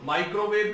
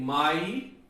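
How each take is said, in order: First: Said in the usual way. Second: 'microwave' as माइ, crow, वेव with long pauses; syllable split. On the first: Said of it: "में कैसे जाएंगे". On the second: Shown as a demonstration. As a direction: stretch and separate each part of 'microwave'. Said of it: "microwave में कैसे जाएंगे". ('Microwave' को तीन खंडों में रुककर बोलें)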